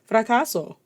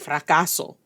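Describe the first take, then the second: First: The word is said lightly and brightly. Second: The word is said heavily and gloomily. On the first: "No one's like fracaso" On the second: "you hear the dun dun dun failure even in the way you pronounce the word"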